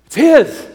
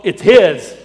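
First: "his" hit higher and punched; emphatic repeat. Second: Said in the usual way. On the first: Real, not acted. Pastor repeating the point to men, stressing "his" high. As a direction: lift and punch the word "his". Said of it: "repeated for emphasis". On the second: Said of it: "first of a repeated line".

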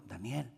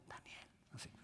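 First: Soft, sorrowful call of a name; sad voice. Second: Much softer, grieving call; sad voice. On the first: Preacher showing the king's sad call. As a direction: call his name with grief. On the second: Preacher demonstrating the king's sad call. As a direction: barely voice the name in sorrow. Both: Shown as a demonstration. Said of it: "así, ponga voz triste".

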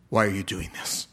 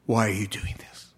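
First: Said in the usual way. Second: Whispered in disbelief; awed whisper. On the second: Retold or imitated. The man whispering his amazement at the bishop's mercy. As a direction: breathe the question in wonder.

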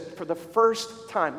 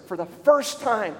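First: Said in the usual way. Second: Slow down and lean hard on "first"; stress on FIRST. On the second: Retold or imitated. Pastor repeats a mom's testimony for emphasis, stressing "first". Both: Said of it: "listen to this".

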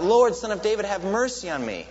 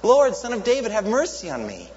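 First: High, loud plea from the roadside; begging cry for mercy; beggar crying out. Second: Much higher, louder desperate shout. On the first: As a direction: call out to be heard over the crowd. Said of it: "crying out". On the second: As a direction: shout over the crowd hushing you. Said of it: "he would shout all the louder". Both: Retold or imitated.

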